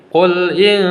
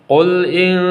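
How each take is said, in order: No difference in how they are said.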